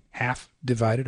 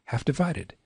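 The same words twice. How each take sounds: First: "Half" held apart before "divided"; "Half divided" slowly, with a long first beat; drawn-out option. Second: "half divided" run together in one sweep; "half divided" joined, without a pause; quicker option. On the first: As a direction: pause after Half, then say divided. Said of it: "I suppose you could". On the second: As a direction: move straight from half into divided. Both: Shown as a demonstration.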